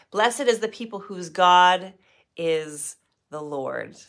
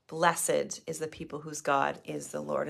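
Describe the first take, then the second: First: Slow, weighty reading of "Blessed is the people"; solemn scripture reading. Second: Softer repeat of "Blessed is the people whose God is the Lord"; quiet reflective repeat. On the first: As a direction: proclaim it slowly, pausing before the end. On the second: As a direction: say it again softly to yourself. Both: Shown as a demonstration.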